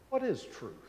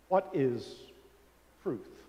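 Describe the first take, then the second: First: It sounds sincerely curious and open. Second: It sounds cynical and world-weary. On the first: He really wants to know the answer. "with genuine curiosity" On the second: He doubts there is any real answer. "with a sort of worldly cynicism"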